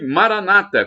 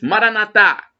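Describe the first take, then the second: First: The stress falls before the last syllable. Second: The stress falls on the last syllable. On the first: This is how Protestants say it. "como dizem os evangélicos, os protestantes" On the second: This is how Catholics say it. "com a tônica na última sílaba"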